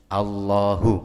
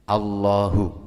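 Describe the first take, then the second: Both takes have the same delivery.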